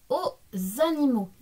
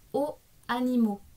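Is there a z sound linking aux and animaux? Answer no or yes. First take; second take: yes; no. First: Aux and animaux are joined by a linking z. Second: Aux and animaux are said without a linking z. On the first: The speaker calls it right. "j'ai dit aux animaux" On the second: The speaker calls it wrong. "et non pas aux animaux"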